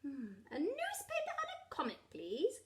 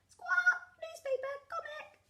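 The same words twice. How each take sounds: First: Said in the usual way. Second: Very high squawking parrot voice; parrot mimicry. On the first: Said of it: "Grandad Dog and Danny Dog said". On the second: A narrator's reading. Parrot copies the dogs' shopping order, very high squawky mimicry. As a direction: parrot back the words in squawks. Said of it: "Polly Parrot copied".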